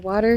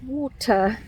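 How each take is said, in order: First: It is said in an American accent. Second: It is said in a British accent.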